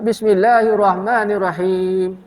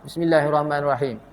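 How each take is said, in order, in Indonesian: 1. Bunyi akhir ditahan panjang. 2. Bunyi akhir dipotong pendek. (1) "itu panjang"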